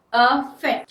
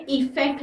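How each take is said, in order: First: अफेक्ट said with a clear short a at the start; careful pronunciation. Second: इफेक्ट said starting with i, as the wrong form; wrong version. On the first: Teacher modelling the word for students, stressing the a. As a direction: say अफेक्ट as a-fect, opening on a. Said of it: "pronunciation में पहले ध्यान दीजिए". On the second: Teacher showing students the wrong form, plainly. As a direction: contrast इफेक्ट with an i sound. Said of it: "इफेक्ट नहीं". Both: Shown as a demonstration.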